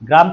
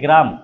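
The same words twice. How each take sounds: First: The g and r are said together with no vowel. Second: An extra e vowel separates the g and r. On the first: "গ্রাম থেকে" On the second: "একার গ্রাম"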